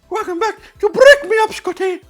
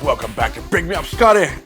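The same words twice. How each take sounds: First: It is said in a Mario impression. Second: It is said in his normal voice.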